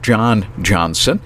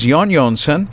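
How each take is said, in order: First: Both names begin with an English J sound. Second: Both names begin with a Y sound. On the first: "It looks like John Johnson, and we would pronounce that" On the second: "they pronounce J's in Iceland as a Y sound"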